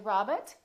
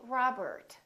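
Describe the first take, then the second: First: It is said with a British accent, R silent. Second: It is said with an American accent, R sounded. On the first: The speaker calls it wrong. "British people would say Robert, so don't say Robert" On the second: The speaker calls it right. "Americans would say"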